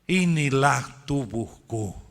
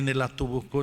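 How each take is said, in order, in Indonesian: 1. Frasa itu diucapkan dengan pelan dan penuh penekanan. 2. Frasa itu dilafalkan dengan cepat. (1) "dengan pelan-pelan"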